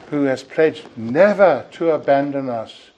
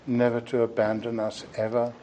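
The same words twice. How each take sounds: First: "never" leaned on, louder and declaimed; emphatic never. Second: Soft reassurance. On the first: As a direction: press hard on "never". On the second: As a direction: let "never" settle gently. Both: Shown as a demonstration.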